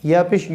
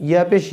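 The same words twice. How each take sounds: The two takes are said the same way.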